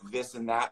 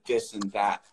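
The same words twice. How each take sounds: First: The TH sounds are fully pronounced. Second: The TH sounds are replaced by simpler sounds. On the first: "not saying T H's like this and that" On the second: "shortcutting them to this and that"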